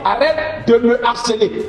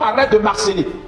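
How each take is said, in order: First: The word 'me' is said in full. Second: The 'e' of 'me' is dropped before 'harceler'. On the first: The speaker calls it right. "on va dire arrête de me harceler" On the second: The speaker calls it wrong. "et non"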